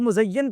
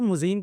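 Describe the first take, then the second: First: The middle has a doubled y with 'a' vowels. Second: The middle is a single long 'ee' vowel. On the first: The speaker calls it right. "इस लफ्ज़ का तलफ़्फ़ुज़ क्या है" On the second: The speaker calls it wrong. "वो मुज़य्यन को मुज़ीन कह रहा है"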